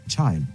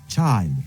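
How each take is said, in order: No difference in how they are said.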